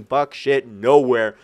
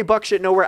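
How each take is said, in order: First: "buck shit nowhere" said slower, each word weighted; emphatic stress. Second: Said in the usual way. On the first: Shown as a demonstration. Stressing to viewers "buck shit nowhere", emphatic. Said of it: "when I say buck shit nowhere". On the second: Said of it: "I mean buck shit nowhere".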